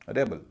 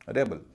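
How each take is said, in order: The two takes are said the same way.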